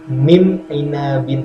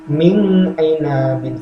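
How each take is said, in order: First: The n is changed into a nasal m sound. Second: The n is hidden and nasalized, not fully pronounced. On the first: "dibaca dengung menjadi mim ainabin, salah" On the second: "dibaca ikhfa samar"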